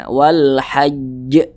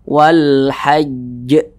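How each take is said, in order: No difference in how they are said.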